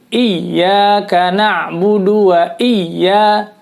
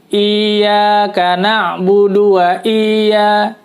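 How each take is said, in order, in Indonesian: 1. Konsonan yang digandakan ditekan kuat. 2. Vokal pertama dipanjangkan. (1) "tidak dipanjangin tapi ditekan" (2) "Yang biasanya dibaca adalah dipanjangin kadang-kadang"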